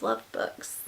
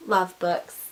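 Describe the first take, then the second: First: Soft whispered confession; hushed devoted whisper. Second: Said in the usual way. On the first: Real, not acted. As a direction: whisper it lovingly to yourself. Whispered aside about books.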